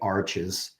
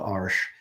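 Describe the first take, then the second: First: It is pronounced as an English word. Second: It is pronounced as a French word. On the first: The speaker calls it wrong. "pronounced it like in English, you would say arches" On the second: The speaker calls it right. "but it's called Arche"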